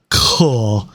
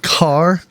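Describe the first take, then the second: First: The name is said in an exaggerated fancy way. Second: The name is said in a plain, ordinary way.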